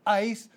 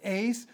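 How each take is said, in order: First: The word does not rhyme with 'ace'. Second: The word rhymes with 'ace'.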